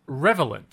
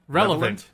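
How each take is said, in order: First: The v sound comes before the l sound. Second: The l sound comes before the v sound. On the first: The speaker calls it wrong. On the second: The speaker calls it right.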